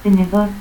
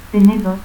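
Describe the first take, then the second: First: Said in the usual way. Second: Tenedor with final R cut to a stop; altered final R. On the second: Shown as a demonstration. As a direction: say "tenedot", no R at the end. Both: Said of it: "confusión de R y T al final".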